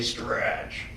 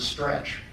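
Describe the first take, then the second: First: The word is said slowly and drawn out. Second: The word is said short and flat. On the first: The word sounds like what it means. The speaker calls it right. "they don't say stretch" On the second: The word does not sound like its meaning. The speaker calls it wrong. "when they say the word stretch"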